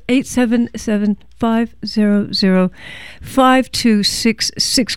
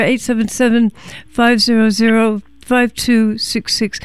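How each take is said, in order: First: Phone number read out slowly; slower repeat. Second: Said in the usual way. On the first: Real, not acted. Host repeats the pledge number for listeners, slower. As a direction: say the digits slower, spaced in small groups. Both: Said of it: "Let me say it slower".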